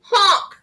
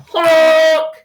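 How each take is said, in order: First: Short, higher honk with a touch of fear; a small mock-frightened truck horn; scared honk. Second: Loud, drawn-out honk; yelled truck horn. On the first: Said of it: "and he sounded scared". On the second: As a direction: blare it like a big truck's horn. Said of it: "yelled a dump truck coming through". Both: A narrator's reading.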